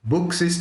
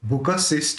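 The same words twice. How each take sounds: First: The k is said bare, with no vowel after it. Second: The k is said with a vowel after it. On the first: "बुक शिष्ट लिया तो क आधा हो गया" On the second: "बुक शिष्ट लिया तो क पूरा निकला"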